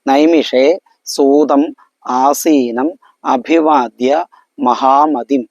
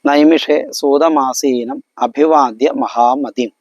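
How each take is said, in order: First: The words are said separately with breaks. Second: The words are run together without a break. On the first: The speaker calls it wrong. "പിരിച്ചിട്ടാണ് വാക്കുകളൊക്കെ ഉള്ളത്" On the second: The speaker calls it right. "കൂട്ടിയിട്ട് മാത്രമേ വായിക്കാവൂ"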